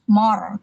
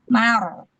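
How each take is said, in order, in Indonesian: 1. Suku katanya dibaca berat dan tebal. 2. Suku katanya dibaca ringan dan tipis. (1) "bukan mor" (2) "Mimnya tipis"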